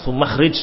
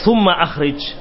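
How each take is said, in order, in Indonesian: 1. Kedua kata menyambung tanpa hamzah. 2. Hamzah memisahkan kedua kata. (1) "bukan sumakhrij" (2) "ya summa akhrij"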